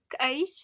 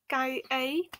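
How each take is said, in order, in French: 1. Le mot est raccourci à une seule syllabe. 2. Le mot est prononcé en entier, en deux syllabes.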